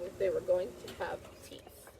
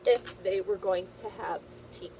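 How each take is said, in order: First: Secretive unvoiced whisper; spooky storytime whisper. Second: Said in the usual way. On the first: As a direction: hush it like a secret for kids. Teacher reads story to children.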